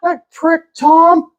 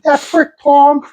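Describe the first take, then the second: First: High, griping Pittsburgh voice; Pittsburgh accent. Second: Slow, high Pittsburgh drawl; Pittsburgh accent. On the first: Retold or imitated. Neighbor cursing Tom, high Pittsburgh accent. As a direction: gripe high in broad Pittsburghese. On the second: Shown as a demonstration. Comedian showing the neighbor's accent, slow high Pittsburgh. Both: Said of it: "that's a Pittsburgh accent".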